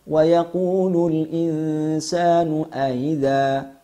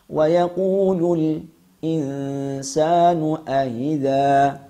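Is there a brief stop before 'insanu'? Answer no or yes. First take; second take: no; yes. First: The glottal stop comes fully, with no stop before it. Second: A brief stop comes before the glottal stop. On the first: "Adapun jalur atau wajah yang kedua" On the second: "Kami ulang kembali cara membacanya"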